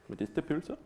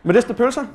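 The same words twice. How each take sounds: First: Medisterpølse said very softly, trailing up like a question; a tentative, half-swallowed Medisterpølse; quiet, unsure Danish try at Medisterpølse; shy Danish attempt. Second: Medisterpølse said out loud and high, laughing through it; laughing, louder redo of Medisterpølse; proud Danish retry. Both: Shown as a demonstration. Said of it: "My Danish is a lot better than that".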